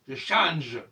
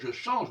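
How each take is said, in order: First: The final consonant is crisply pronounced. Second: The final consonant is not sharply pronounced. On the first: The speaker calls it right. "avec un je qui claque à la fin" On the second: The speaker calls it wrong. "on ne doit pas dire"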